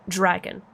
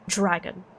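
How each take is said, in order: The two takes are said the same way.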